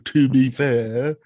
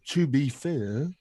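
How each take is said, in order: First: It is said in an old-fashioned, posh British voice. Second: It is said in a hesitant, dithering voice. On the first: "I'm talking like old English, fifteen eighty-five British, historical, you know, doctor" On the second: "you could say it like a dithering idiot"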